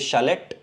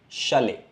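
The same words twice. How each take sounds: First: The final t is pronounced at the end. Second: The ending is silent t, sounding like ay. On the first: The speaker calls it wrong. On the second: The speaker calls it right.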